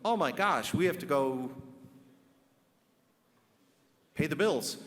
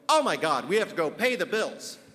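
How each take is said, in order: First: It is said in a plain, flat way. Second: It is said with exaggerated, heightened emotion.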